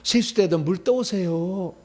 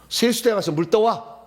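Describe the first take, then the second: First: It is said in a meek, polite tone. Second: It is said in a firm, commanding tone.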